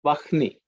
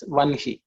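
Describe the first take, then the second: First: Vahni as Vah-ni, h before n; written-order pronunciation. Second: Vanhi as Van-hi, n before h; common flipped pronunciation. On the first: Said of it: "One of the common words". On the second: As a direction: close on the n, then say hi in Vanhi. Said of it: "they pronounce it as". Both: Shown as a demonstration.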